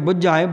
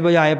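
First: The middle consonant is doubled and held long. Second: The middle consonant is short and single. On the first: It means to make someone understand. "ਅੱਧ ਕਲਾਕੇ ਪੜ੍ਹਾਂਗੇ ਬੁਝਾਏ ਬੁਝ ਲੈਣ ਦਾ" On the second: It means to be put out. "ਜੇ ਬੁਝਾਏ ਪੜ੍ਹਾਂਗੇ ਬੁਝਣ ਦਾ ਅਰਥ ਹੋ ਜਾਊਗਾ"

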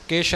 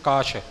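First: The word is said with an 'i' vowel. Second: The word is said with an 'a' vowel. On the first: The speaker calls it wrong. "ਜੋ ਅਸ਼ੁੱਧੀ ਆਉਂਦੀ ਹੈ ਉਚਾਰਨ ਵਿੱਚ" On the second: The speaker calls it right. "ਕੱਕਾ ਮੁਕਤਾ ਹੈ"

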